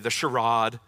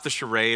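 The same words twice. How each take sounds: First: It is said in a British accent. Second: It is said in the speaker's normal accent.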